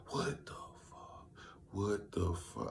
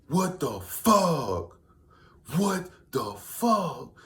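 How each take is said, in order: First: Whispered what the fuck, fading; stunned whisper. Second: Very slow, high drawn-out what the fuck; stunned disbelief. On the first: Reading the news of Kobe's death, whispered in shock. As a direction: breathe it out in shock. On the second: Hearing of Kobe Bryant's death, drawn out in disbelief. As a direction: stretch it out in shock. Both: Retold or imitated. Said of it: "I said W T F maybe for two minutes straight. different ways".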